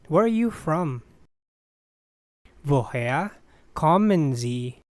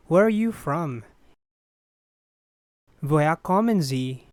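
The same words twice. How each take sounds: The two takes are said the same way.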